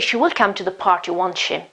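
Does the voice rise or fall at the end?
fall. The voice falls at the end.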